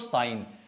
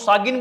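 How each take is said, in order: First: The g is silent; it ends in a plain n. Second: A g sound is pronounced before the n. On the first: The speaker calls it right. "नहीं तो साइन" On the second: The speaker calls it wrong. "इसको सागिन बोलोगे भाई"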